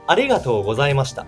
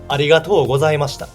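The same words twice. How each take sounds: First: It has the Tokyo intonation pattern. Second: It has the Kansai intonation pattern. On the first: "in Tokyo, people say" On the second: "But in Kansai, we say"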